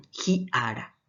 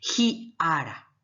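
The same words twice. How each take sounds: First: Said in the usual way. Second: "Ji ara" said slowly, stress on the first syllable of "ara"; slow teacher demo leaning on the first syllable of "ara". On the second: Shown as a demonstration. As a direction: spell out "Ji ara" with a slow, heavy "A-ra". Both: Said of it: "cómo voy a decir".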